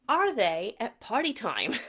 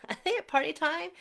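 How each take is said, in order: First: Said in the usual way. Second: Higher, fast, with a laugh; laughing excitedly. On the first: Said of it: "same question asked twice". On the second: Shown as a demonstration. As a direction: laugh it out, giddy and quick. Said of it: "same question repeated, laughing".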